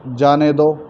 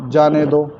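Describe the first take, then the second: Both takes have the same delivery.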